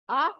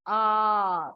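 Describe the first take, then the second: First: The vowel is said short. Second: The vowel is said long. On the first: "The short and the long" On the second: "The short and the long"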